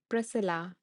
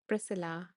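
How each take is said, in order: First: The middle of the name has only an S sound. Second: The middle of the name has only an S sound.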